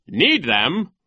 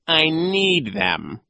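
First: Loud, high questioning echo; incredulous question. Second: Very slow, loud, higher voice; insistent villain. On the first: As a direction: query it in disbelief. Nero questions the villain. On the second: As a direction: stretch out the refusal. Villain refuses to unshoe. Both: A narrator's reading.

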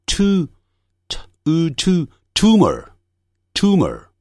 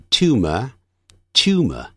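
First: Tumor built up as t, oo, "too-mer"; slow American "tumor", no glide, clear r; American pronunciation. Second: Tumor as "tyoo-muh", r dropped; slow British "tumor" without curled tongue; British weak r. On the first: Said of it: "但美式的发音念". (美式发音，tumor念成tumer，带卷舌) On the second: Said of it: "卷舌音在英式发音通常不那么强的". (英式tumor，不卷舌) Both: Shown as a demonstration.

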